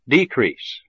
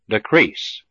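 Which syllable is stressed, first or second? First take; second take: first; second. First: The stress is on the first syllable. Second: The stress is on the second syllable. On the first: It is used as a noun. "the first syllable of the noun has primary stress" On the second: It is used as a verb. "the second syllable of the verb has primary stress"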